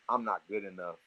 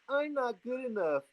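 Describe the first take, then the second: First: It is said in a normal voice. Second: It is said in a whiny voice.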